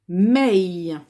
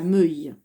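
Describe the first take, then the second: First: The vowel is an open 'è' sound. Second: The vowel is a rounded 'eu' sound. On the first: The speaker calls it right. "le E se prononce E" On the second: The speaker calls it wrong. "je ne dis pas meuille"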